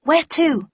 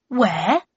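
First: High, loud, eager where to; eager question. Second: A mock-astonished where, rising; exclaimed. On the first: Daughter eagerly asking her dad where they go. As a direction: jump on his words, keen to know. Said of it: "we're leaving". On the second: Father exclaiming back at his daughter, mock astonished. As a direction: echo her question as if it were obvious. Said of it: "he exclaimed". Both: A narrator's reading.

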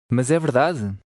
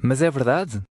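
The two takes are said the same way.

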